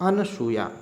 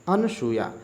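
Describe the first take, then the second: The two takes are said the same way.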